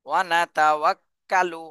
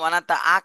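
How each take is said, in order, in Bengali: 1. w ধ্বনিটি গোল ঠোঁট করে উচ্চারিত হয়। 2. 'ta'-এর পরের w ধ্বনিটি বাদ যায়। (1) "ওয়াও ওয়াও ঠোঁট গোল" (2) "এটা কিন্তু ওয়ানাতা আক হবে না"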